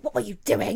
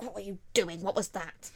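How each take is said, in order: First: Loud, indignant mock yell; outraged demand. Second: Lightly voiced indignant question; understated disbelief, close to normal volume; milder demand. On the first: Aria confronting her best friend, loud and outraged. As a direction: burst out at her in disbelief. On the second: Aria questioning her best friend, mildly indignant. Same quote, resumed more calmly.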